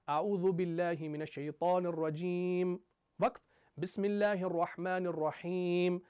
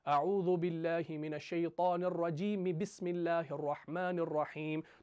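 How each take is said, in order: First: There is a pause between the two phrases. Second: The two phrases are joined without a pause.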